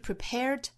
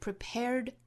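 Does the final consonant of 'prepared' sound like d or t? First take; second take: t; d. First: The word ends with a voiceless t sound. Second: The word ends with a short, held d sound. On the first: The speaker calls it wrong. "不是 t，不是 prepared" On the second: The speaker calls it right. "而是 prepared"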